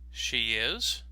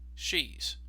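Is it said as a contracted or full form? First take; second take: full; contracted. First: Both words are said fully and separately. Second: The words are shortened into one syllable. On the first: "the full form" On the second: "the contraction"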